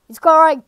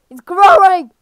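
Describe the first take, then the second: First: Said in the usual way. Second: Louder, urgent cry of alarm; rising alarm. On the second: Real, not acted. Player watching the game boss grow, alarmed and loud. Repeats as the boss keeps growing.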